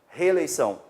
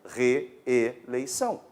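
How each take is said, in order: First: The two e sounds at the start merge into one. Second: Both e sounds at the start are pronounced separately. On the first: This is the casual, everyday pronunciation. "qual seria a pronúncia coloquial? ... perderíamos o fonema" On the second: This is the formal, careful pronunciation. "na pronúncia culta? A gente diria reeleição"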